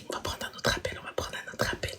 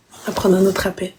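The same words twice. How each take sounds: First: Breathy whisper, no voice. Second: Said in the usual way. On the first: Real, not acted. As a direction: whisper it to yourself. Whispered aside, then said aloud.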